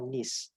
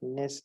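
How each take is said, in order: First: The ending has a short 'i' vowel, like 'nis'. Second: The ending has a clear 'e' vowel, like 'ness'. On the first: The speaker calls it right. "it is nus or nis" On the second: The speaker calls it wrong. "it is not ness"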